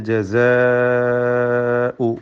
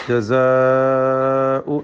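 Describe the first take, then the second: No difference in how they are said.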